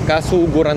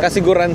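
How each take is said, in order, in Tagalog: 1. Ang ikalawang pantig ay may patinig na 'u'. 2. Ang ikalawang pantig ay may patinig na 'i'. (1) "Kasuguran dito" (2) "Kasiguran sa Aurora"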